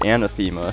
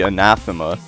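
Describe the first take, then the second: First: It uses the invented community pronunciation. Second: It uses the standard dictionary pronunciation. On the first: This is how players say the level's name. "everybody, including the creator of the level, pronounces it Anathema" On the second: This is how the English word is normally said. "the dictionary pronunciation of that is actually anathema"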